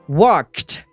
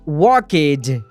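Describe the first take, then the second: First: The ending is a t sound. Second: The ending is not a t sound. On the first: The speaker calls it right. "o som é de T, e sim walked" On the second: The speaker calls it wrong. "então não é walked"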